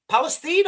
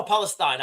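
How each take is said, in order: First: Palestine ending in "-steen", rhyming with bean. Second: Palestine ending in "-stine", rhyming with line. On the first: Host unsure how to read the group's name, Palestine said as "Palesteen". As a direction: say the last syllable of Palestine as "steen". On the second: Host offering the other reading of the name, Palestine said as "Palestyne". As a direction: say the last syllable of Palestine as "stine". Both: Shown as a demonstration. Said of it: "Palestine or Palestine, I don't know".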